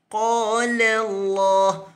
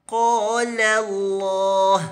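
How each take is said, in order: Both takes have the same delivery.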